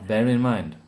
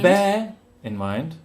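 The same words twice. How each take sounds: First: The words are linked together as one smooth chunk. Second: The words are said separately with breaks between them. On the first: The speaker calls it right. "the common phrases or saying is one chunk" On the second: The speaker calls it wrong. "It's not"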